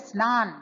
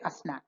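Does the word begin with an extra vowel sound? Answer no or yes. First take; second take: no; yes. First: It starts directly with the s consonant cluster. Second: An extra vowel is added before the cluster. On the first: The speaker calls it right. "They can't say snan" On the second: The speaker calls it wrong. "they will say asnan"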